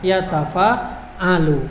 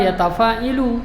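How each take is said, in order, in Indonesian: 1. Vokal setelah 'ain adalah a. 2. Vokal setelah 'ain adalah i. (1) "Karena polanya" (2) "jangan pernah baca ... itu ngawur namanya"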